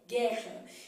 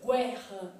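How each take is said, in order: First: No w sound follows the g. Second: A w sound follows the g. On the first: The speaker calls it right. "é gué, guerra" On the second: The speaker calls it wrong. "eu não falo U, senão eu falaria guerra"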